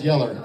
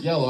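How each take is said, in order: First: YELLER with a Southern "-er" ending; Southern accent. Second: Said in the usual way. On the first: Shown as a demonstration. Comic correcting himself for the crowd, Southern YELLER. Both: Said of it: "I'm from the South".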